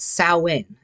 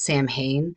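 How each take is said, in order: First: It is said with the native Irish pronunciation. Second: It is said as English reading of the spelling. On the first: This is how the living language says it. The speaker calls it right. "It's Samhain, and it is in the Irish language" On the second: This is a common mistaken version. The speaker calls it wrong. "Many people think that it's Samhain, but it's not"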